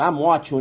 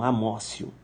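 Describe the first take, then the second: First: The middle consonant is a hard t sound. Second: The middle consonant is a soft s sound. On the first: The speaker calls it wrong. "escreve amótio" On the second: The speaker calls it right. "Não, amócio. ... a pronúncia é amócio"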